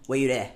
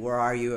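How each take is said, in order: First: Lightly attempted Belizean Creole accent. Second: Said in the usual way. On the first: Shown as a demonstration. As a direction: show how Belizean Creole says it. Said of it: "I don't have the good accent". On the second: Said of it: "Like, instead of saying".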